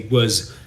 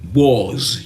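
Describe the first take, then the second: First: The vowel is a weak, reduced schwa. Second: The vowel is a full, unreduced vowel. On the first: The speaker calls it right. "You say was" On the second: The speaker calls it wrong. "You don't say was"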